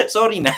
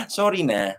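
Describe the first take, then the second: First: Sorry said through a high laugh; laughing sorry to the viewers; laughing apology. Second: Said in the usual way. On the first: Real, not acted. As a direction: giggle out the apology. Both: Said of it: "I'm so sorry naman".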